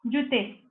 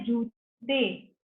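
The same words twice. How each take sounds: First: जूते with a short, quick u; short vowel mispronunciation. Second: जूते with the ū drawn out slowly; correct long vowel. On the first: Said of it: "छोटी को बड़ी बोलते हैं और बड़ी को छोटी". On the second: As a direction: stretch the first vowel of जूते long, then "te". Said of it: "जबकि होता क्या है?". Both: Shown as a demonstration.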